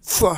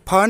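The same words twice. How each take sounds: First: It is a hiss made with lower lip on teeth. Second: It is a puffed sound made with both lips. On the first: The speaker calls it right. "ये फ है" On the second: The speaker calls it wrong. "लेकिन फ नहीं है"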